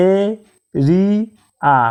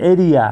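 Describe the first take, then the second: First: এরিয়া stretched very slowly as a-ri-a; slow split of এরিয়া after the normal take; syllable by syllable. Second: Said in the usual way. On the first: Shown as a demonstration. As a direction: split এরিয়া into three drawn-out beats. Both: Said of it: "তিনবার উচ্চারিত শব্দ".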